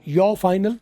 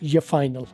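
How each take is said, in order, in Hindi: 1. 'Your' का उच्चारण पूरा होता है। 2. 'Your' छोटे 'ya' में घट जाता है। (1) "योर फाइनल भी ठीक है" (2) "ज्यादा बेहतर बता रहा हूं, मोस्ट कॉमन ये फाइनल"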